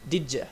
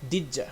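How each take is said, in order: First: The two words run together as 'didja'. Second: The two words run together as 'didja'.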